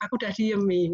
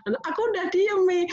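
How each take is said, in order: First: Said in the usual way. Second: Imitating a sobbing child, much higher; mock teary child voice, pitched way up. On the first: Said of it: "dia laporan". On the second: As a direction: play the little one still hiccuping from tears. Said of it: "suaranya masih sesengguhan begitu".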